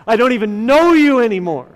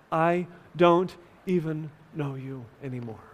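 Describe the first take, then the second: First: Raised, fast cry of a betrayed husband; hurt, furious outburst in a retelling; retold scream. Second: Subdued, solemn retelling of angry words; retold shout, hushed. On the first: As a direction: act out his angry shout, quick and loud. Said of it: "as he screams". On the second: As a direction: voice the shout quietly, as grieving love. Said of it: "as he shouts".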